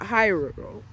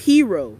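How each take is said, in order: First: The first vowel sounds like 'eye'. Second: The first vowel sounds like 'ee'. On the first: The speaker calls it wrong. "not Hyro" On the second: The speaker calls it right. "It's hero"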